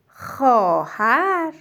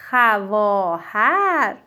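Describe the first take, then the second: First: خواهر said slowly as xɔhær, the و silent; spoken form. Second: خواهر drawn out slowly as it is written; spelled form. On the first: Teacher contrasting how خواهر is read. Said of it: "اما بخونیم". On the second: Teacher showing the written form of خواهر. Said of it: "باید بنویسیم". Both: Shown as a demonstration.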